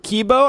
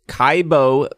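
First: The first vowel sounds like 'ee'. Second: The first vowel sounds like 'eye'. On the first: The speaker calls it right. "it's Kibo because the I is the E" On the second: The speaker calls it wrong. "I think I was saying it wrong"

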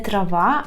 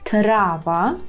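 First: The stress is on the second syllable. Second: The stress is on the first syllable. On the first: The speaker calls it wrong. "Не трава" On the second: The speaker calls it right. "а трава"

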